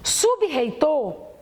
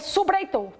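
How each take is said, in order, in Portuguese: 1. O R depois do B é forte e arranhado. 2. O R se funde com o B como uma batida. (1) "sub-reitor termina em B, o sub, e o reitor começa em R" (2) "Mas se eu juntar, eu vou ler subreitor"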